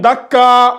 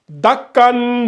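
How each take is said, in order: First: The word ends with a long vowel. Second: The word ends with an n sound. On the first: The reading stops at this word. "on a supprimé le deuxième tanwin" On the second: The reading continues without stopping. "au lieu que ça soit"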